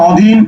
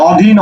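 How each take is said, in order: Both takes have the same delivery.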